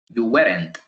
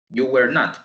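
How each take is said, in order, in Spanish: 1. 'Were' y 'not' se unen en una sola sílaba. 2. 'Were' y 'not' se dicen como dos palabras. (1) "la leeríamos y pronunciaríamos you weren't" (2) "no está contractado"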